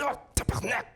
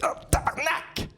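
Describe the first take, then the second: First: It is said quietly, holding back the pain. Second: It is exclaimed loudly in pain.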